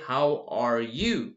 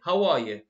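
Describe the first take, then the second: First: Each word is said slowly and fully. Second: The words are said fast and run together. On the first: The speaker calls it wrong. "I don't say" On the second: The speaker calls it right. "I say"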